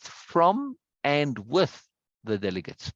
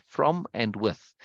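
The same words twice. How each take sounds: First: Said in the usual way. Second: From and with said slowly, each word set apart; stress on from and with. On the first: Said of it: "Very particular there". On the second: Shown as a demonstration. Teacher pointing out the chosen words, slow and deliberate. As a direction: lean slowly on from, and, with in turn. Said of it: "Very particular there, from and with".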